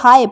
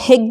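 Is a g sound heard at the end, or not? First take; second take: no g; g heard. First: The word ends with a vowel sound. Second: The word ends with a g sound. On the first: The speaker calls it right. "हम इसको हाय पढ़ रहे हैं" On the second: The speaker calls it wrong. "हम यहाँ पर हिग नहीं पढ़ रहे हैं"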